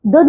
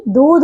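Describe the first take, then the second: First: दूध said as "dudh"; wrong short vowel. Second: दूध said as "doodh"; correct long vowel. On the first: Teacher showing pupils the error, दूध with short u. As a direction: clip the u in दूध. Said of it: "दूध नहीं". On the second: Teacher correcting pupils, दूध with long oo. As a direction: hold the oo in दूध. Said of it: "दूध होता है बच्चों". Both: Shown as a demonstration.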